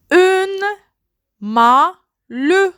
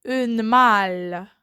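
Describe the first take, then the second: First: High "Une", then "malle" with a rising end; syllabified. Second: Said in the usual way. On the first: Shown as a demonstration. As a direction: break "Une malle" into two beats. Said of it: "word split into syllables". ("Une malle" détaché, voix haute sur "Une") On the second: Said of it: "word said whole after split".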